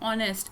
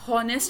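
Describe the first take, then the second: First: The word begins directly with a vowel. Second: The word begins with an h sound. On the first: The speaker calls it right. "इसकी आवाज़ ए से start हो रही है" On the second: The speaker calls it wrong. "इसको आप हॉनेस्ट नहीं पढ़ेंगे, यानी हे से इसकी आवाज़ नहीं निकालेंगे"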